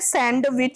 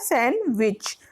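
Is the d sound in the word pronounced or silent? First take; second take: pronounced; silent. First: The d sound is pronounced in the word. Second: The d sound is left out of the word. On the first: The speaker calls it wrong. "Normally से सैंडविच बोलते हैं जो कि हम गलत बोलते हैं" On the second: The speaker calls it right. "ऐसे बोला जाता है सैंडविच"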